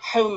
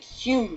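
First: The vowel sounds like the one in comb. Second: The vowel sounds like the one in fume. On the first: "pronounced as it's spelt" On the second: "not pronounced as it's spelt"

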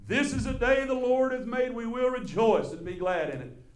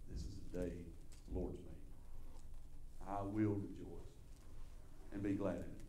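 First: It is said in a strong, full chest voice. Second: It is said in a weak, quiet voice.

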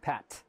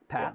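First: The final T is blown out with air. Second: The final T has no puff of air. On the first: The speaker calls it wrong. "You would never say pat" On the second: The speaker calls it right. "we don't do that"

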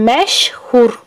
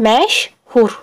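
The two takes are said the same way.

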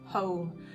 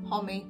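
First: The word ends with an m sound. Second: The word ends with an extra vowel sound. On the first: The speaker calls it right. "and they'll go ah!" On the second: The speaker calls it wrong. "they say the E sound"

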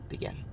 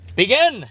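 First: It is said weakly and quietly. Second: It is said loudly and forcefully.

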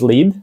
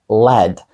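First: The vowel is a long 'ee' sound. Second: The vowel is a short 'eh' sound. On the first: The speaker calls it wrong. "Також lead? Ні" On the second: The speaker calls it right. "Це led. І led означає свинець"

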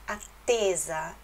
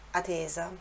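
First: The t sound is long and stronger. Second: The t sound is short and single. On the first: The speaker calls it right. "então aquele T dá esse sonzinho um pouquinho mais forte" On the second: The speaker calls it wrong. "Com um T só. Mas vou dar um exemplo. Se fosse assim, seria attesa"

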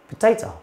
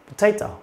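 Both takes have the same delivery.

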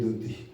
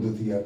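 First: The word ends on a slightly lengthened 'ee'. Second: The word ends with an extra 'aa' syllable. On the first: The speaker calls it right. "ਨਹੀਂ ਇਹ ਦੁਤੀ" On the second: The speaker calls it wrong. "ਲੱਗਿਆ ਸਮਝ ਕੇ ਇਹਨੂੰ ਦੁਤੀਆ ਪੜ੍ਹ ਗਏ"

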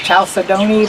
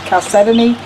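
First: The word is said the commonly heard way. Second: The word is said the recommended way. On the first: The speaker calls it wrong. "some people recognize it as chalcedony" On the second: The speaker calls it right. "the correct way to say it is chalcedony"

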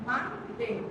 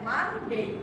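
Both takes have the same delivery.

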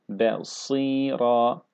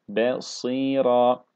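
Both takes have the same delivery.

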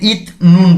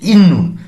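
First: The first syllable ends in a 't' sound. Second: The first syllable ends in an 'n' sound. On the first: The speaker calls it wrong. "তো এখানে ইত নুন বলছি না" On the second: The speaker calls it right. "আমরা বলেছি ইন নুন"

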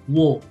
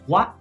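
First: The vowel after the w sounds like 'oh'. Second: The vowel after the w sounds like 'ah'. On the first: The speaker calls it right. "es wo" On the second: The speaker calls it wrong. "nunca se pronuncia wa. No es wa"

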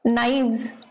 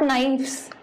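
First: The consonant before the ending is a V sound. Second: The consonant before the ending is an F sound. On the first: The speaker calls it right. "F becomes V" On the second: The speaker calls it wrong. "Not knives"

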